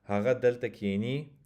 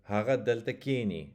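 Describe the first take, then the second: First: Haga delta kini with the last syllable of kini stressed; ki-NI, rising at the end; accent on the end. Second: Haga delta kini with KI stressed in kini; KI-ni, falling away at the end; accent on the front. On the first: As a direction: land on ni in kini. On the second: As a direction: hit the first syllable of kini. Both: Shown as a demonstration. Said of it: "just by changing the accent".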